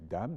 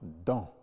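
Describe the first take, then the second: First: The word ends with a clear m sound. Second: The word ends with a nasal vowel, no m. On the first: "On peut dire dame, D A M" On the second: "on peut prononcer également dans"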